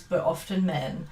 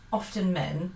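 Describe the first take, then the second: First: "often" pressed firmly, tune falling to settle it; stress on often. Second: "often" lifted with a rising tune, tentative; rising often men. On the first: Speaker insisting to the viewer, "often" falling firmly. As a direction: land "often men" with a firm fall. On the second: Speaker hedging to the viewer, "often" rising. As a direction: float "often men" up as a first try. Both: Real, not acted. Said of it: "not always".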